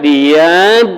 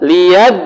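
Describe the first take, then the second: First: The doubled consonant is dragged out before entering. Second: The doubled consonant is entered directly, not dragged. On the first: The speaker calls it wrong. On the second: The speaker calls it right.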